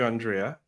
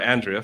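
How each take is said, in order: First: The name is said the Mexican Spanish way. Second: The name is said the English way. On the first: It is the name as used for someone else. The speaker calls it wrong. "I live in Mexico, and so we say Andrea" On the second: It is the name as its owner uses it. The speaker calls it right.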